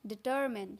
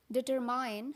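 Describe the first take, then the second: First: Determine ending in a short min, di-TER-min; correct determine. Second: Determine ending in MINE; wrong determine. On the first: Teacher shows the correct determine. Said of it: "तो इसको pronounce करते हैं". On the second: Teacher shows the common wrong determine. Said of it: "but this is incorrect". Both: Shown as a demonstration.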